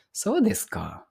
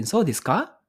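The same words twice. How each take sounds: First: So desu ka? with the tune falling at the end. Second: So desu ka? with the tune rising high at the end like a question. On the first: Teacher contrasting it with the rising question. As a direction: settle ka down like a flat statement. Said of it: "Ah, ganun ba?". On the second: Teacher showing a surprised question. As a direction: lift ka? into a question. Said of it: "O parang patanong na yun". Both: Shown as a demonstration.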